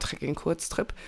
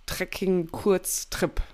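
First: Said in the usual way. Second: Trekking-Kurztrip said very slowly, syllable by syllable; careful tricky word. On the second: Real, not acted. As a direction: pick through Trekking-Kurztrip slowly as if it might trip you up. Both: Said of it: "das ist auch ein schwieriges Wort".

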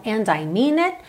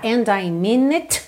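First: "and I mean it" with the T of "it" unreleased; cut-off final T. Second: "and I mean it" with the T of "it" popped; released final T. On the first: Teacher shows the preferred way, "it" with a swallowed T. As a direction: stop short on "it" without popping the T. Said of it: "Dá uma cortada". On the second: Teacher shows what to avoid, "it" with an audible T. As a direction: fully release the last T in "it". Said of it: "Pra não ficar and I mean it". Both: Shown as a demonstration.

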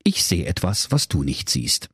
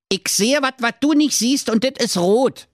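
First: Said in the usual way. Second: High Berliner voice, "wat" and "dit" with t; Berlin dialect. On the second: Acted. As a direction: Jakob speaks broad Berlin dialect, higher. Jakob Grimm in Berlin dialect. (Berliner Schnauze)

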